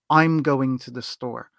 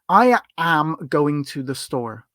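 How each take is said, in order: First: I am is shortened to one syllable. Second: I am is said as two full words. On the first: The speaker calls it right. "it's more common that it's going to get shortened to I'm going to the store" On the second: The speaker calls it wrong. "We wouldn't really say I am going to the store"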